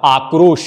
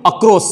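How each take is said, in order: First: "आक्रोश" with long aa, joined kr and final sh; correct pronunciation. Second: "अक्रोश" with short initial a and final s, pitched up; mispronunciation demo. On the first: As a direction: open long on "आक्रोश", close on sh. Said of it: "तो सही शब्द है बच्चों दूसरा". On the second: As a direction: say "अक्रोश" as akros, quick first vowel. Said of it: "ये गलत है". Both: Shown as a demonstration.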